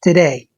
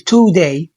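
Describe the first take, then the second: First: The first vowel is weak and barely heard. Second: The first vowel is a full, clear 'oo' sound. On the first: The speaker calls it right. "اعتبر حرف الاو مش موجود فبنقول today" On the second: The speaker calls it wrong. "مش بنقول today"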